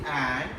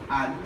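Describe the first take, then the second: First: The word is said with its full vowel. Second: The word is reduced to a weak un. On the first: "Strong is and" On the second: "weak is un"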